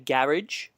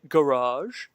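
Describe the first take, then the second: First: Garage is said with a British pronunciation. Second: Garage is said with an American pronunciation.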